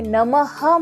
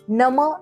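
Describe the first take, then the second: First: The word ends with a breathy h release. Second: The word stops at the vowel without h. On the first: The speaker calls it right. "इथे नमः म्हणायचंय" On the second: The speaker calls it wrong. "नम इतकं म्हणून सोडायचं नाहीये"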